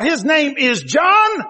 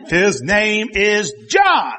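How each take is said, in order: First: Slow, raised, ringing declaration; higher slow proclamation; proclaiming the name. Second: Slow, weighty declaration; mock slow proclamation; mild mock proclamation. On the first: Retold or imitated. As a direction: lift it up and announce it slowly. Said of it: "he wrote out". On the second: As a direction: spell out the name slowly and firmly. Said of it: "he's going".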